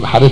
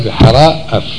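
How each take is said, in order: First: The two words are merged into one. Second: The two words are kept apart. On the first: The speaker calls it wrong. "כאילו בחרף ומגדף" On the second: The speaker calls it right. "אלא בחרה אף"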